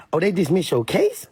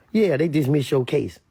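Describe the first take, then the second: First: "case" lifted in a rising question. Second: "case" falling as a statement; confirming statement. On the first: Reacting to [name]'s post about his case, questioning rise on "case". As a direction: ask it, pitch climbing on "case". Same words asked, then answered. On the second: Answering about [name]'s dismissed case, confirming fall on "case". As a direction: answer it, letting "case" drop. Answers the question just asked. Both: Retold or imitated.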